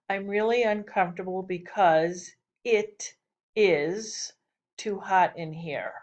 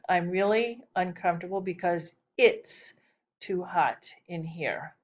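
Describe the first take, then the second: First: "It is" is said as two full words. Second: "It is" is shortened to one syllable.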